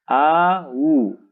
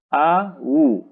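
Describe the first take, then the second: Both takes have the same delivery.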